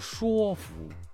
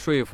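First: 说 is read with its newer pronunciation. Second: 说 is read with its older pronunciation. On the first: This is the reading used now. "他叫说服" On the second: This is the reading no longer used. "不念说服了"

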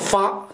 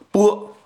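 First: The syllable is pronounced fa. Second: The syllable is pronounced bo. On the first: "我认为读作发就好" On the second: "有人说读成波啊"

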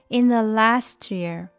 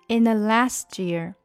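The two takes are said the same way.

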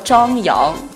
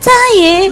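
First: The second syllable is said as 'yang'. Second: The second syllable is said as 'ying'. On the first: "他叫张扬" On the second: "他是这么叫"

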